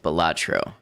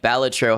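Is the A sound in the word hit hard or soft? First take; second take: soft; hard. First: The A sound is said softly. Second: The A sound is hit hard. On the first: The speaker calls it right. "correct pronunciation for that is Balatro" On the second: The speaker calls it wrong. "A lot of people hit that A sound hard"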